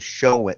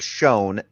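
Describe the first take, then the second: First: The word is said as two syllables. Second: The word is said as one syllable. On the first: "they turned the word shown into a two-syllable word" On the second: "instead of saying shown"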